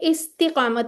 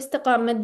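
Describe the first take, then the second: First: It is said with an 'i' after 'ist'. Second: It is said without an 'i' after 'ist'. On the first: The speaker calls it right. "इस्तिकामत होता है वैसे" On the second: The speaker calls it wrong. "हम गलत बोलते हैं हम ये बोल देते हैं"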